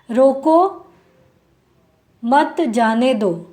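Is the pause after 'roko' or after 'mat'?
after roko. There is a pause after 'roko'.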